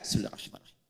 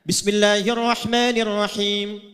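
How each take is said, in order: First: It is recited quietly, almost silently. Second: It is recited aloud, clearly audible.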